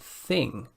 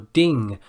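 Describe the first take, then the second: First: The word begins with a th sound. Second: The word begins with a d sound. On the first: The speaker calls it right. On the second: The speaker calls it wrong.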